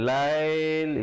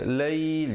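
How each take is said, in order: First: The vowel glide is said forcefully and heavily. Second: The vowel glide is said softly and lightly. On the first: The speaker calls it wrong. "jangan lail, itu tak betul" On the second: The speaker calls it right. "dibacakan dengan lembut saja"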